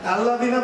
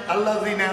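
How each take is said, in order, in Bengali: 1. দ্বিতীয় অক্ষরের স্বরধ্বনিটি ছোট করে, হ্রস্ব করে পড়া হয়। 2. দ্বিতীয় অক্ষরের স্বরধ্বনিটি ছোট করে, হ্রস্ব করে পড়া হয়।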